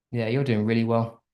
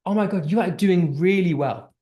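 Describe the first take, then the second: First: Lower, softer, dismissive praise; flat sarcastic praise. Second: Bright, eager praise; enthusiastic praise. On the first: Teacher demoing praise to a student, flat and sarcastic. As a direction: say it like you don't mean it. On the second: Teacher demoing praise to a student, enthusiastic. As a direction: gush over their work. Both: Shown as a demonstration. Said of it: "the tone is very different".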